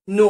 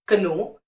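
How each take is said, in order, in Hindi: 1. शब्द सीधे n ध्वनि से शुरू होता है। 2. शब्द की शुरुआत एक सुनाई देने वाली k ध्वनि से होती है। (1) "के साइलेंट है" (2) "ये चारों ही प्रोनाउंसिएशन बिल्कुल गलत है"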